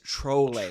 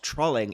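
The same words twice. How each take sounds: First: The first syllable sounds like 'troll'. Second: The first syllable sounds like 'trawl'. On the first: The speaker calls it right. "it's trolling" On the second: The speaker calls it wrong. "It's not trolling, ... You don't change the beginning"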